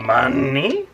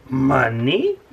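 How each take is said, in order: First: Louder hammed-up crab captain; Mister Krabs voice. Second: Hammed-up crab captain voice; a bad, hammy Mister Krabs. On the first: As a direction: push the bad Krabs voice harder. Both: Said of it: "that was a terrible Mister Krabs impression".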